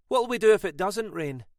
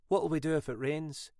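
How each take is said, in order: First: Higher, louder comeback with weight on do; wry retort. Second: Said in the usual way. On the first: A narrator's reading. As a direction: toss the question back wryly. Mackenzie turns the question back.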